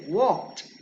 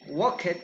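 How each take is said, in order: First: The ending is a plain t sound. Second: The ending is an extra separate syllable. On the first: The speaker calls it right. "you say walked" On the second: The speaker calls it wrong. "totally incorrect"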